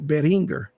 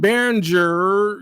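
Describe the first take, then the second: First: The g is hard, as in 'go'. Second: The g is soft, like a 'j'. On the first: The speaker calls it right. "It's actually Behringer" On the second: The speaker calls it wrong. "like Jur"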